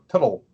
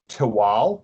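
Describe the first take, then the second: First: The ending is a separate 'tul' syllable. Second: The ending is a long L sound. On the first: The speaker calls it wrong. "they go Tuttle, and it's no" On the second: The speaker calls it right. "it's just a, like a longer L"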